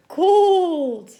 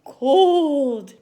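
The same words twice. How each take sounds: First: Shivering with cold. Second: Said in the usual way. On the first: Shown as a demonstration. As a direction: shiver as you say it. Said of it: "Make yourself shiver". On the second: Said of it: "Sign language for cold?".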